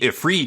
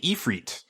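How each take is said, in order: First: The first vowel is a short 'ih' sound. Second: The first vowel is a long 'ee' sound. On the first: "So it wouldn't be Ifrit" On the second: "they pronounce the I as an E"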